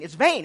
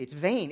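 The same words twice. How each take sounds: First: Louder mock complaint. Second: Mock complaint. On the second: People's dismissive complaint voiced.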